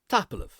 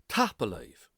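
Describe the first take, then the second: First: The final word is shortened and contracted. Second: The final word is said in full.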